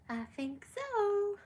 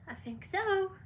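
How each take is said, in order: First: High and slow, drawn-out coo; slow high pet voice. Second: High pet voice. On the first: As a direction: stretch it out up high like talking to a puppy. Repeat, answering for the dog. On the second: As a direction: chirp it up high for the dog. Answering for the dog. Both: Real, not acted.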